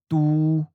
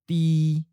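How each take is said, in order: First: The vowel is the u version. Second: The vowel is the i version. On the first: "then followed it with the common north or the seacoast leaning accent" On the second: "We'll first read the common south or inland leaning pronunciation"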